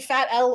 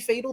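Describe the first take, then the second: First: Said as the word 'fat' and the letter L. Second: Said as the single word 'fatal'. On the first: The player is doing poorly. "The pronunciation for uh, Mister Blade" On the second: The player is doing well. "depending on how well he performs"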